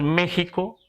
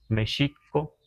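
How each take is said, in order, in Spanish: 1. La consonante del medio es una h gutural. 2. La consonante del medio es un sonido sh. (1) "hoy decimos México, ... está castellanizado decir México" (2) "lo que los nahuas decimos México"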